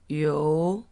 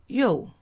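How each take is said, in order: First: The pitch rises from middle to high. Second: The pitch falls sharply from high.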